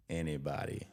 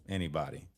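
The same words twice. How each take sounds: The two takes are said the same way.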